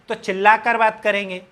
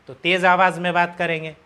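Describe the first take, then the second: First: It is said in a shouting voice. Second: It is said in a loud voice.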